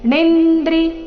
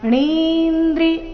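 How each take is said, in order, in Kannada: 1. n ನಂತರದ ಸ್ವರ ಹ್ರಸ್ವ. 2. n ನಂತರದ ಸ್ವರ ದೀರ್ಘ. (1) "ಈ ರೀತಿ ಬೇಡ" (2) "ಣಿ ದೀರ್ಘ ಇದೆ"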